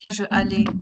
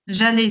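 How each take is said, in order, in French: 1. Je se prononce entièrement devant allais. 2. Je s'élide et se lie à allais. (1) "c'est pas je allais" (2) "On doit faire l'apostrophe"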